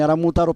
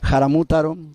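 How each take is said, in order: First: The word begins directly with a vowel sound. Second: The word begins with an aspirated breathy sound. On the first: This is how the name is written. The speaker calls it wrong. "Se escribe como Aramútaro" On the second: This is how the name is said in the original language. The speaker calls it right. "la pronunciación correcta es Jaramútaro"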